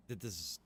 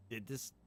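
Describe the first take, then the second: No difference in how they are said.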